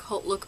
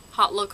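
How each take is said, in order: First: "Haute Look" with a long o, like "hote"; chosen pronunciation. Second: "Hot Look" with a short open o, as in hot; alternative pronunciation. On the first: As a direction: say "Haute" to rhyme with boat. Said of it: "I'm just gonna say Haute Look". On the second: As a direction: say "Hot" to rhyme with not. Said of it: "I think it's Haute Look". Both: Shown as a demonstration.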